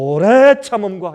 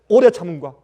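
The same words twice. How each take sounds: First: The phrase is drawn out long. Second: The phrase is said short and quick.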